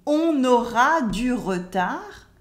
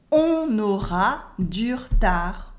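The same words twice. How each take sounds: First: "on aura du retard" with the E in "re" sounded; full French schwa. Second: "on aura du retard" ending "dur-tar"; dropped French E. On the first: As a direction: pronounce "du retard" as "du re-tar". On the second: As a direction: cut the E, slowly saying "du retard" as "dur-tar". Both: Shown as a demonstration.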